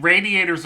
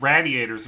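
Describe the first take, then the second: First: Said in the usual way. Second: "radiators" with a short a, as in "rad"; hometown pronunciation. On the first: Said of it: "radiators are what you have in the car". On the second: Shown as a demonstration. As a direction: say RADIATORS as "raddiators". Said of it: "and radiators are what you have in the house".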